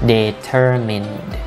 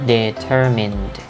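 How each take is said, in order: Both takes have the same delivery.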